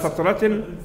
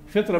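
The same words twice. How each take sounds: First: The first vowel is an 'a' sound. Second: The first vowel is an 'i' sound. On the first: The speaker calls it right. "بفتح الفاء" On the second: The speaker calls it wrong. "بكسر الفاء"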